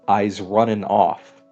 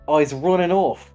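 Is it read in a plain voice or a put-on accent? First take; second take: plain voice; put-on accent. First: It is read in a plain voice. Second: It is read in a put-on accent.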